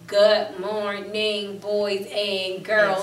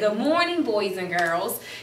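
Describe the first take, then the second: First: It is read slowly, word by word. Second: It is read smoothly, like natural talk. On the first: The speaker calls it wrong. "Like I don't say to you" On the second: The speaker calls it right. "it should be smooth when they read"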